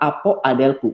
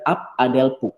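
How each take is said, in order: First: The final vowel of the first word is kept. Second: The final vowel of the first word is dropped. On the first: The speaker calls it wrong. "Bukan apo adelpu" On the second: The speaker calls it right. "Jadi ap adelpu"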